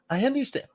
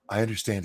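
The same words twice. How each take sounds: First: The voice is higher and lighter. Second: The voice is low and deep.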